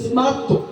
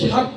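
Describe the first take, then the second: First: The word starts with an 'sm' sound. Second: The word starts with an 'sw' sound. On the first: The speaker calls it right. "দন্ত স্বয়ময় আকার তয় তয় দেব, স্মার্ত" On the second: The speaker calls it wrong. "এটা ভুল উচ্চারণ"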